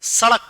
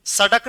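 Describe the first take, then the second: First: सड़क with a quick flapped ड़, not a hard d. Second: सड़क said wrongly with a hard ड stop; hard ड mispronunciation. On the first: Teacher corrects students, सड़क with flapped ड़. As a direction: flap the tongue on ड़ in सड़क. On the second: Teacher shows students the mistake, सड़क with hard ड. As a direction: make ड़ in सड़क a plain hard d. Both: Shown as a demonstration. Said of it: "सड़क नहीं".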